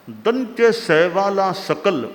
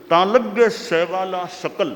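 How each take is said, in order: First: सकल said with a dental s, as sakal. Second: सकल said as shakal, with a palatal sh. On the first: Teacher showing a minimal pair, सकल with dental s. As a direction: open सकल on a clean s at the teeth. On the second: Teacher showing a minimal pair, सकल with palatal sh. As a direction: begin सकल with sh, not s. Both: Shown as a demonstration.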